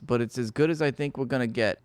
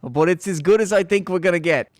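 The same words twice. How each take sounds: First: Said in the usual way. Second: Mock quote. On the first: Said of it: "he says". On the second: Repeats quote louder, mocking.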